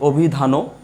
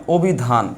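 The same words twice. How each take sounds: First: অভিধানও said slowly as "o-bhi-dha-no"; অভিধানও drawn out with a final vowel; unused pronunciation. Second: অভিধান said slowly, ending on n; অভিধান with no final vowel; word as written. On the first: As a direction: add an o to the end of অভিধানও. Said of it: "আমরা কি কখনো বলি". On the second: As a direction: say "o-bhi-dhan" for অভিধান, drawn out. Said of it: "আমি লিখলাম অভিধান". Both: Shown as a demonstration.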